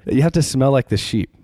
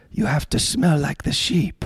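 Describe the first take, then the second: First: Said in the usual way. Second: Higher, slow mock Argentine accent; imitating an Argentine speaker, badly and slowly. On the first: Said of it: "that was a bad Argentine accent, but". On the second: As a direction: put on a clumsy Argentine accent. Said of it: "that was a bad Argentine accent".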